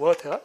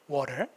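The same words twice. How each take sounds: First: It is said in a British accent. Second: It is said in an American accent. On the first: "최대한 딱딱하게 하면 돼요. water. 영국식" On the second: "미국식"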